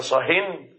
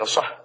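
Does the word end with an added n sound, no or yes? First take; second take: yes; no. First: The word ends with an added n sound. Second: The word ends without a final n sound. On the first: Be silent about all talk. "أما إذا قلت لك صهن" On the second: Be silent about this particular talk. "بدون تنوين"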